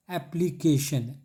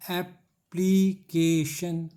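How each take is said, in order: First: application slowed but kept as one word; measured model reading. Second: application very slow, AP, PLEE, KAY, SHUN; syllable breakdown. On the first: Teacher introducing the example application, slow careful delivery. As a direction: say application slowly, syllables joined. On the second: Teacher breaking up application for students, slow separated syllables. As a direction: split application into four stretched beats. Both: Shown as a demonstration.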